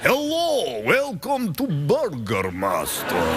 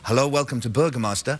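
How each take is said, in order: First: It is said in a put-on Dracula voice. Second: It is said in his ordinary own voice.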